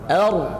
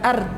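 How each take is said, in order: First: The r is pronounced thick and heavy. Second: The r is pronounced thin and light. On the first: The speaker calls it right. "ditebalkan bunyi ra-nya" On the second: The speaker calls it wrong. "Jangan dibaca tipis"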